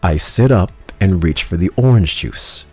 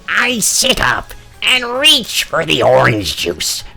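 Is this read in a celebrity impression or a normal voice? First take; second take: normal; celebrity impression. First: It is read in a normal speaking voice. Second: It is read in a put-on celebrity voice.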